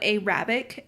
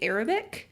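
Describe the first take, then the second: First: The word is said the Southern way. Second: The word is said the standard way. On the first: The speaker calls it wrong. "So it comes out Arabic" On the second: The speaker calls it right. "apparently it's difficult to say Arabic"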